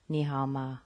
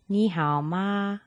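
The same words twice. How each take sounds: First: The voice is deep and low in the chest. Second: The voice is high and resonates in the nose. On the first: The speaker calls it wrong. "Very low sound" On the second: The speaker calls it right. "the sound is coming from the cavity around the nose"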